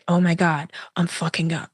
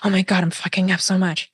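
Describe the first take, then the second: First: It is said slowly. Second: It is said fast.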